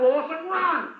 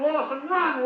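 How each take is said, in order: First: Higher, more desperate cry of run; insistent shout at the player. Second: High urgent call, run; first call, already raised; calling out to a player. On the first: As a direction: push him harder, second time. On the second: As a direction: urge him to sprint for it. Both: Real, not acted. Urging player from commentary box.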